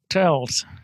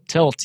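First: The word is said in an American accent. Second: The word is said in an Afrikaans accent. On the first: "You got to put the American accent on it" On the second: "it's Afrikaans accent"

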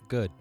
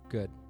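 First: It is said in an aggressive tone. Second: It is said in a gentle, soothing tone.

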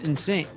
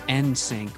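First: It begins with a soft, blended 'in' sound. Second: It begins with a distinct, hard N sound. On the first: "I always just call him NSYNC" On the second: "I noticed that you keep pronouncing the hard N in NSYNC"

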